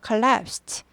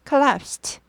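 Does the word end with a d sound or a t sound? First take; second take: t sound; t sound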